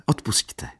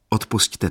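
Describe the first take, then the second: First: Whispered apology; whispered sorry to her aunt; quiet. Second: Said in the usual way. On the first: A narrator's reading. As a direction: breathe the apology softly. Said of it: "dodala tiše". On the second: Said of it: "prosila dívka".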